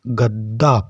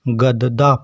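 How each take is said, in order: First: The 'd' is doubled without a vowel between. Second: The 'd' is a full separate syllable. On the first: The speaker calls it right. "इसका मतलब यह दा आधा दा है। इसको हम गद्दा पढ़ेंगे" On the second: The speaker calls it wrong. "जब हलंत का चिन्ह नहीं होता तो इसको हम गददा पढ़ते"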